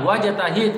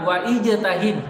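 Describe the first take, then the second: First: The i of ijtahid is dropped after wa. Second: The i of ijtahid is pronounced after wa. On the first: The speaker calls it right. "Kenapa di sini tidak dibaca alifnya?" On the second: The speaker calls it wrong. "Kenapa tidak dikatakan wa ijtahid?"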